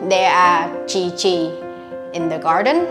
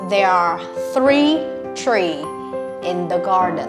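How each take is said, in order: First: The words start with a 'ch' sound. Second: The words start with 'th' and 'tr' sounds. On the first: The speaker calls it wrong. "teacher will also fix for you the mistake you made" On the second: The speaker calls it right. "It is actually sounds like this"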